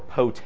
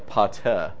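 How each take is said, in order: First: The first vowel is an English O sound. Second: The first vowel is an A sound. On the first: The speaker calls it wrong. "So this wouldn't be pote or pote" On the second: The speaker calls it right. "But it's really a pate"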